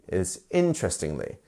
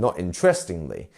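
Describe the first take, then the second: First: The stress falls on the first syllable. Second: The stress falls on a later syllable. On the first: The speaker calls it right. "it's the first one" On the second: The speaker calls it wrong.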